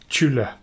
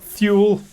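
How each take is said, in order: First: The word begins with a t sound. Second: The word begins with a th sound. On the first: The speaker calls it right. "It's always t sound" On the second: The speaker calls it wrong. "I always thought"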